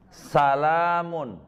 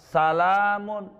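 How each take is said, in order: No difference in how they are said.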